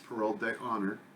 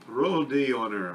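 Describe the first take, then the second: First: It is said in a plain English accent. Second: It is said in a put-on French accent.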